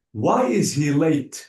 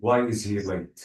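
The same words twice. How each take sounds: First: "Why is he late?" with a falling tune, pitched up; falling question tune. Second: "Why is he late?" said lower, the tune flat and falling; contrasting question tune. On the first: Teacher showing Subhi the question tune. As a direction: ask "Why is he late?" dropping at the end. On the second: Teacher showing Subhi the wrong tune. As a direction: say "Why is he late?" low and level. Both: Shown as a demonstration. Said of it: "I didn't say".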